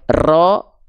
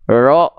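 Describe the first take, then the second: First: The r is trilled long and heavily. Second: The r has no trill at all. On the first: "getaran yang terlampau berlebih berlebih-lebihan" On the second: "Jadi hilang"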